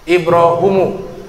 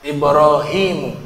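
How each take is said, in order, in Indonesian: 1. Vokal setelah h adalah u. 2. Vokal setelah h adalah i. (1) "dibaca dhamma huruf h-nya" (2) "Ada ya juga di huruf h-nya"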